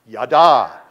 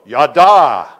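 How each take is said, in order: First: The word is said with plain, ordinary energy. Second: The word is said with strong, lively energy.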